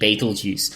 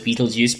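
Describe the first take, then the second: First: The name is said closer to its written spelling. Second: The name sounds just like the word Beetlejuice. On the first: The speaker calls it right. "but it's B E T E L G E U S E" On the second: The speaker calls it wrong. "some people mispronounce it as Beetlejuice"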